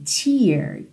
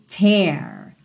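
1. A vogal é pronunciada mais fechada. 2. A vogal é pronunciada mais aberta.

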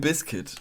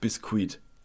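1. Das Wort hat die übliche, normale Betonung. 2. Das Wort wird französisch betont. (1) "Limp Bizkit, nicht Bizkit" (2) "Ich habe es eher französisch betont"

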